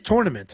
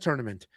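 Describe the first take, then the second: First: The first syllable sounds like 'tour'. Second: The first syllable does not sound like 'tour'. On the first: The speaker calls it right. "Spell the word tour, T O U R. Spell tournament. That's the fucking word" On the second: The speaker calls it wrong. "Everybody says tournament"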